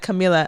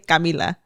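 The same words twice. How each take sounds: First: The name is said with English-style sounds. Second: The name is said with Spanish-style sounds. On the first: This is the technically correct form. "technically Camila, but I I feel like I would never say it like that" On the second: This is the way the speaker naturally says it. "I would say Camila"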